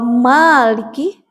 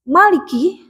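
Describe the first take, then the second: First: The first vowel is long. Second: The first vowel is short. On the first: It means owner. "Maliki pemilik" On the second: It means king. "Kalau Maliki pendek maknya itu artinya raja"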